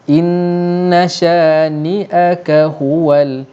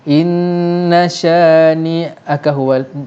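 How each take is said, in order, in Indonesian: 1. Setiap suku kata ditahan sepenuh panjangnya. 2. Suku katanya diucapkan terburu-buru dan dipotong terlalu pendek. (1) "disebutkan dengan cukup tempohnya" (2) "Kalau tak cukup macam mana?"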